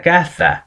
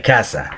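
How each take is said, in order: First: Caza with a lisped th, like "katha"; Castilian caza. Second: Casa with a clear s, like "kasa"; Latin American casa. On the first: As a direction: say caza the Spanish way, th in the middle. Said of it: "This means that caza". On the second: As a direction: say casa with a plain s, no th. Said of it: "sound the same in Latin America, like casa". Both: Shown as a demonstration.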